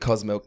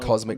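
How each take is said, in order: First: It is said as two words, cow's milk. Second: It is said as the single word cosmic. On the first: The speaker calls it wrong. "Who's calling it cos milk?" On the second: The speaker calls it right. "You actually said it right"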